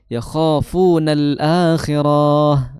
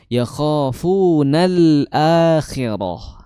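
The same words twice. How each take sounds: First: The ra syllable of akhirah is drawn out long. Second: The ra syllable of akhirah is short. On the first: The speaker calls it wrong. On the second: The speaker calls it right.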